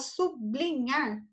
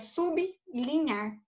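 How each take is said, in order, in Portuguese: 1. Os sons do b e do l se misturam num só grupo. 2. Os sons do b e do l são pronunciados separados. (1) "seria aquela consoante perfeita" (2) "mas aqui é sublinhar"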